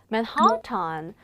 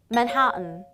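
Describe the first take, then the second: First: The last syllable has a full 'tan' vowel. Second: The last syllable is reduced to 'tn'. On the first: The speaker calls it wrong. "뭐- 뭔가 막 이상하게 하고 싶지 않나요?" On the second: The speaker calls it right. "정확한 발음은 맨하튼"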